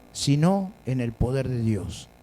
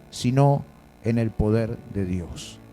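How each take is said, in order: The two takes are said the same way.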